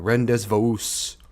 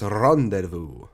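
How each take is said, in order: First: The word is sounded out letter by letter. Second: The word is said in its usual pronunciation. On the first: The speaker calls it wrong. "That's basically how it's spelled out" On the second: The speaker calls it right. "But it's pronounced rendezvous"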